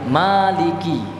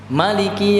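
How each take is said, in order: First: The vowel after the m is drawn out long. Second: The vowel after the m is kept short. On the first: "dipanjangkan mimnya" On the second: "dipendekkan semuanya, mim lam kafnya dibaca pendek"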